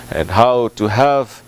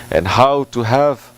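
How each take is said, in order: Both takes have the same delivery.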